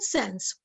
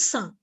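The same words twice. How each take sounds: First: The word is said with an English pronunciation. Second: The word is said with a French pronunciation. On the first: "in British English or American English, you can say sans" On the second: "In French, the word is pronounced as sans"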